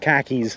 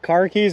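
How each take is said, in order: First: It is said with a Boston accent, r dropped. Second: It is said with a standard, non-Boston accent.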